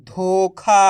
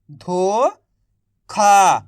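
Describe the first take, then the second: First: Said in the usual way. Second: धोखा stretched slowly, sounding out the ओ vowel; slow drawn-out reading. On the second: Shown as a demonstration. Teacher to young readers, sounding out धोखा slowly. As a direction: draw out धोखा slowly like a phonics drill. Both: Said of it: "तो बताइए मिलके क्या बनेगा".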